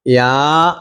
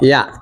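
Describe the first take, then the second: First: "യാ" held long; stretched vowel. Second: Said in the usual way. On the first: Shown as a demonstration. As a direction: draw out the vowel of "യാ". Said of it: "നീട്ടാൻ എന്ത് വേണം". ("യാ" നീട്ടി പറയുക) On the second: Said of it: "യാ എന്ന് നീട്ടാൻ".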